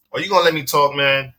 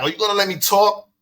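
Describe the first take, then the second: First: Said in the usual way. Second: Higher, pressing challenge in his face; lightly retold angry demand; confronting, in his face. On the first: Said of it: "So I was like". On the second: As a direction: push right up into his face with it. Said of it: "so I get in his face".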